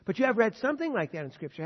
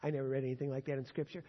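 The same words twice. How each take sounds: First: Louder, higher push on "you have read"; emphatic rebuttal. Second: Quick, offhand quote of a skeptic; mock doubter's objection. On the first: Real, not acted. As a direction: hit back at the objection with force. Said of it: "preacher rebuts the objection". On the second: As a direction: toss off the objection fast like a doubter. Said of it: "You say".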